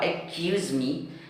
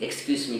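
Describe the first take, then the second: First: The phrase is pronounced with distorted sounds. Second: The phrase is pronounced in the standard way. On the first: It sounds like a rude or different request. The speaker calls it wrong. "tetapi Anda membacanya yang di bawah" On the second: The speaker politely asks to pass. The speaker calls it right. "Anda mau mengatakan permisi"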